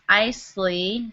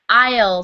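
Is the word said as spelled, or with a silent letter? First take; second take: as spelled; silent letter. First: The word is sounded out as it is spelled. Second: The word is said with a silent letter. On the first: The speaker calls it wrong. "is kind of what it looks like" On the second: The speaker calls it right. "but it's pronounced aisle seat"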